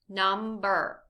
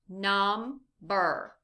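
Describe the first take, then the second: First: It is said faster, syllables blended. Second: It is said slowly, syllable by syllable.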